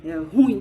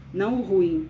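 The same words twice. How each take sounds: First: "ruim" with stress on the i, "ru-IM", a bit louder; correct ruim. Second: "ruim" with stress on the u, like "rúim"; colloquial ruim. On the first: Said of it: "porque a gente fala ruim". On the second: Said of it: "a sílaba tônica é ru". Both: Shown as a demonstration.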